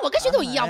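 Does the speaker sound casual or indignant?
indignant. It is said in an offended, indignant tone. The remark expresses resentment at the comparison. The speaker calls it wrong. "是你在耳朵里可能就觉得这个事啊"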